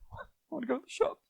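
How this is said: It is said in a sad tone. "That's sad"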